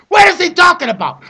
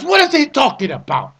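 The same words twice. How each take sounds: First: Exasperated yelled repeat; shouted question. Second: Said in the usual way. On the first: Retold or imitated.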